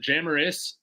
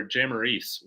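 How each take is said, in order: First: "Jamaris" ending in a short "iss"; short-i pronunciation. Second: "Jamaris" ending in a long "eess"; long-ee pronunciation. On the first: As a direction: say "Jamaris" to rhyme its ending with "miss". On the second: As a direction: say "Jamaris" to rhyme its ending with "fleece". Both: Shown as a demonstration. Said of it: "Is it Jamaris or Jamaris Wilder".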